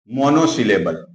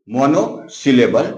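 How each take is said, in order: First: Said in the usual way. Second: monosyllable drawn out slowly, each part separate; teacher spelling out monosyllable slowly for students; slow, syllable by syllable. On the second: Shown as a demonstration. Teacher repeating monosyllable slowly so students catch each part.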